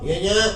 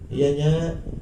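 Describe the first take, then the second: First: The reply is said curtly and harshly. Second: The reply is said softly and gently. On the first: The child answers the parent disrespectfully. The speaker calls it wrong. "Jangan kalau dipanggil sama orang tua" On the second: The child answers the parent respectfully. The speaker calls it right. "harus sautannya dengan sautan yang lembut"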